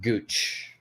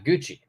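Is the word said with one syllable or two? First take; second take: one; two. First: The word is cut short to one syllable. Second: The word is said in full with two syllables.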